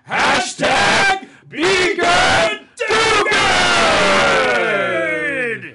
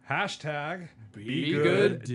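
First: It is said with wild, crazy energy. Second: It is said calmly, without much drama.

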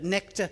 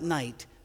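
First: It has a short 'e' vowel and throaty 'ch'. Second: It has a long 'eye' vowel and plain 't'. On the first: This is how the word was once said. "they would have pronounced it that, not night, but necht" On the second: This is how the word is said today. "not night"

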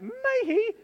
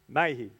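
First: It is said hesitantly, like wishful thinking. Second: It is said firmly, like a confident statement.

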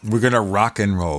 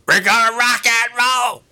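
First: It is said in a normal speaking voice. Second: It is said in a forced, booming announcer voice.

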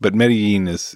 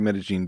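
First: The double L is not said as zh. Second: The double L is said as a zh sound. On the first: "would be totally fine as well" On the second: "that's kind of the accent is the zh on the double L"

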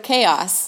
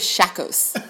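First: The word begins with a K sound. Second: The word begins with an SH sound. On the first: The speaker calls it right. "So chaos" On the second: The speaker calls it wrong. "I thought she said it was shakos"

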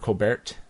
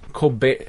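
First: The name ends with a clear T sound. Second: The name ends without a T sound. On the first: The speaker calls it right. "Colbert with the T" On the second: The speaker calls it wrong. "I'm stuck saying Colbert because that's not actually how you pronounce his name"

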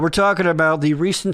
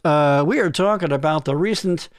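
First: It is said in a normal conversational voice. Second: It is said in a put-on radio announcer voice.

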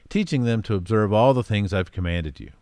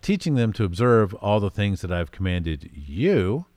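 First: The word you is not stressed. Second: The word you is strongly stressed.

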